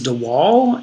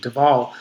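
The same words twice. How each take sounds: First: Waal begins with an English W sound. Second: Waal begins with a V sound. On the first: The speaker calls it wrong. "for most of my life, I pronounced his name" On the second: The speaker calls it right. "he pronounces his name with the W as a V"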